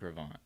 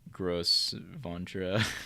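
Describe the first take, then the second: First: The name is said with two syllables. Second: The name is said with four syllables. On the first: The speaker calls it right. "it's pronounced Gravant now" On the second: The speaker calls it wrong. "I was pronouncing it Gross Ventura before, which is definitely a sin"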